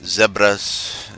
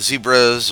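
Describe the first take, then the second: First: It is said with a British pronunciation. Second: It is said with an American pronunciation.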